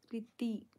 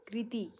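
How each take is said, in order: First: कृति clipped to "riti", k dropped; misread name. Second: कृति with a clear kr at the start; corrected name. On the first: Vlogger first misreading a viewer's name as riti. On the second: Vlogger correcting herself, saying कृति clearly. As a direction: say कृति fully, kri-ti. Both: Shown as a demonstration.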